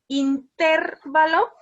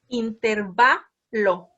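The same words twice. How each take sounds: First: The stress falls on the syllable ter. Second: The stress falls on the syllable va. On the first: The speaker calls it wrong. "si fuera intervalo" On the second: The speaker calls it right. "la palabra correcta es intervalo"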